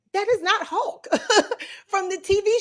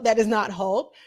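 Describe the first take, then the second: First: "that is not Hulk" pitched high, rising on "is"; indignant protest. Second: Said in the usual way. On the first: Real, not acted. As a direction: protest it like an outraged fan.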